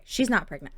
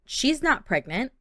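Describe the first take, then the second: First: Said in the usual way. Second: "She's not pregnant" higher, rising at the end; "not" stressed, ending on a rise; questioning. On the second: Real, not acted. Checking whether she is pregnant.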